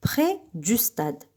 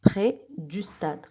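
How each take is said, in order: First: Said in the usual way. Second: Près du stade, slower and much softer. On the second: Shown as a demonstration. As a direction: repeat it gently and slowly. (تكرار بطيء وهادئ)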